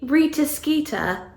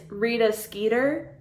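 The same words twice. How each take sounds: First: The name is said in a British accent. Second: The name is said in an American accent. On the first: The speaker calls it right. "It has to be" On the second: The speaker calls it wrong. "in an American accent"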